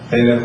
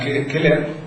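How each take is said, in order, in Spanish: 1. El nombre empieza con un sonido suave, no K. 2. El nombre empieza con un sonido de K fuerte. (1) "para que los que no utilizan la pronunciación clásica" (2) "utilizando como estás utilizando tú la pronunciación clásica del latín"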